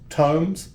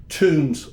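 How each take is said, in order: First: Tomes said with a long O, rhymes with homes; correct surname. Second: Tombs said with an oo, like tooms; wrong surname. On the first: Shown as a demonstration. Correcting the podcast hosts on his surname, Tomes with a long O. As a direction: say Tomes as toamz, long O like tones. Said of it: "T O M E S. That's Tomes". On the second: Retold or imitated. Mimicking how people mispronounce his name, Tombs with an oo. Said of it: "all the time, Tombs".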